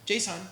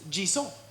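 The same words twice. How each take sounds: First: It is said with an American English accent. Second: It is said with a French accent. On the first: It sounds dumb. The speaker calls it wrong. "in my American English accent" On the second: It sounds much cooler. The speaker calls it right. "in French, it's JSON"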